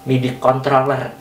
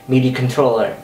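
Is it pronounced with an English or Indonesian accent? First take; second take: Indonesian; English. First: It is pronounced with an Indonesian accent. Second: It is pronounced with an English accent. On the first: The speaker calls it wrong. "gue diketawain sama temen-temen gue, ... itu nggak benar, nggak sesuai" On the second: The speaker calls it right. "sesuai dengan pelafalannya atau pronunciation-nya, ya itu yang benar"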